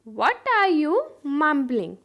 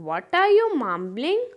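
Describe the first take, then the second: First: Broken-up teaching repeat. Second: Said in the usual way. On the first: Shown as a demonstration. Teacher repeats "What are you mumbling" for learners, in slow chunks. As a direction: pause before the last word.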